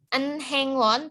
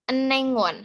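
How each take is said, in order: First: Said slowly, with the h sound pronounced. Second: Said quickly, with the h sound dropped.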